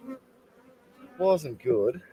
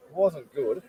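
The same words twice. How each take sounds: First: "It wasn't good" dragged out very slowly; slow, drawn out. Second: Said in the usual way. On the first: Real, not acted.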